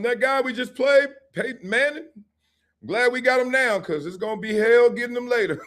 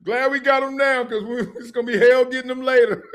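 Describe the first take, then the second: First: High, laughing coach line; laughing quote. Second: High, loud laughing quote; laughing hard. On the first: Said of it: "let me say this". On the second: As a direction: repeat the coach's line, cracking up. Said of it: "He was like". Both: Retold or imitated.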